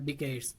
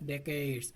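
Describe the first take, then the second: First: The first vowel sounds like 'ee'. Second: The first vowel sounds like 'eh'. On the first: The speaker calls it wrong. "Not ডিকেডস" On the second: The speaker calls it right. "উচ্চারণটা কি করতে হবে? ডেকেডস"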